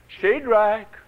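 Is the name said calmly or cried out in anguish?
calmly. The name is said calmly and plainly.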